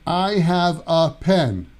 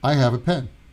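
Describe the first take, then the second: First: The word 'a' is stressed and prominent. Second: The word 'a' is unstressed and weak. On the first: "We don't say" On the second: "The uh is not stressed"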